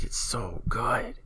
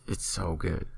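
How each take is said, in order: First: Breathy, drawn-out whisper of delight; awed, stretched-out whisper; gushing whisper. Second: Said in the usual way. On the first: Real, not acted. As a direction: whisper it slowly, savouring how good it is.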